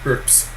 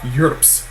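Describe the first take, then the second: First: The word begins directly with a vowel. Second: The word begins with a y sound. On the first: The speaker calls it right. "so it would be herbs" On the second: The speaker calls it wrong. "it is not yerps. You want to make sure you don't sneak in that y sound"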